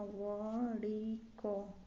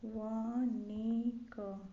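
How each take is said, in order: First: वणिक drawn out with retroflex flap; correct form by syllables. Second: वणिक drawn out with dental n; wrong form by syllables. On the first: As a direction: dictate वणिक slowly, curling the tongue mid-word. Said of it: "इसका होगा". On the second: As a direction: dictate वणिक slowly as va-ni-ka. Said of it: "ये गलत है". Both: Shown as a demonstration.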